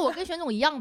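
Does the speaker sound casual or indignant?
casual. It is said lightly and casually, without anger. It was only a passing, offhand remark. The speaker calls it right. "我说我跟玄总一样呗，大概就这个语气"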